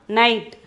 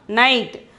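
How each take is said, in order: The two takes are said the same way.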